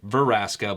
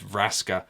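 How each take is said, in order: First: An extra vowel separates the V and the r. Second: The V and the r are said together. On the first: The speaker calls it wrong. "I think I always pronounce it Veraska" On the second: The speaker calls it right. "but it is Vraska"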